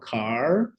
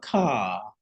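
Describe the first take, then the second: First: The final r sound is clearly pronounced. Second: The final r sound is dropped entirely. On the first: "o americano fala car" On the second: "como ele não fala o R, ele vai falar car"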